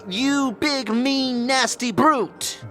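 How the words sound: The word brute is strongly stressed.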